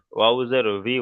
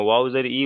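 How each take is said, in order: First: "ভি" as vee after "ওয়াও জের"; correct pronunciation demo. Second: "ই" as a bare ee after "ওয়াও জের"; wrong pronunciation demo. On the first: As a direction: spell out and end on "ভি" with an audible v. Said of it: "ওয়াও জের ভি উচ্চারণ হয়". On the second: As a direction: spell out and end on "ই" with no consonant. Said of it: "উচ্চারণ হয় না". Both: Shown as a demonstration.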